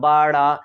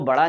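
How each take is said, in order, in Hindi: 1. यह शब्द धीरे-धीरे खींचकर बोला गया है। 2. यह शब्द तेज़ और संक्षिप्त रूप में बोला गया है। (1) "खींच कर पढ़िएगा बड़ा" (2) "आप उसको बड़ा नहीं बोलिएगा"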